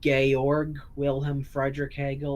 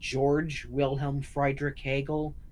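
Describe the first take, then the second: First: The name is pronounced the German way. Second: The name is pronounced the English way. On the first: The speaker calls it right. "that it's pronounced in German" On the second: The speaker calls it wrong. "people say his name is"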